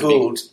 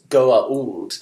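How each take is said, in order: First: The word is run together smoothly, without breaks. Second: The word has small catches between its parts. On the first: The speaker calls it wrong. "we're saying Goa'uld" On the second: The speaker calls it right. "The correct pronunciation is Goa'uld. There are two apostrophes in there"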